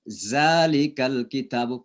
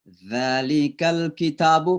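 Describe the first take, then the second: First: The first sound is a buzzing 'z'. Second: The first sound is a soft 'th' as in 'this'. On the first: The speaker calls it wrong. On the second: The speaker calls it right.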